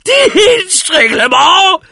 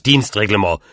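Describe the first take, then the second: First: Drawn-out, very high scream; loud, stretched cry of scorn; outraged shriek. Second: Said in the usual way. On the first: A narrator's reading. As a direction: screech it slowly in disbelief. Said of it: "schrie der alte Mann".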